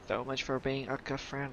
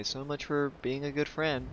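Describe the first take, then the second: First: Quieter mocking repeat; muttered sarcasm. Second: Dry sarcastic jab; sulky sarcasm at the NPC. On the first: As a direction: mutter it under your breath. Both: Real, not acted. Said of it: "said twice, second muttered".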